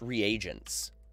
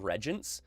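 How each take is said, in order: First: The word is said with three syllables. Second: The word is said with two syllables. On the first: The speaker calls it right. "I think they're pronounced reagents" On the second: The speaker calls it wrong. "I usually just call them regents"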